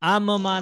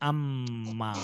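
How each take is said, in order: First: The two m sounds are separated by a break. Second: The m is held long and firmly. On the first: The speaker calls it wrong. "आम माँ नहीं पढ़ना" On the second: The speaker calls it right. "बल्कि अम्मा"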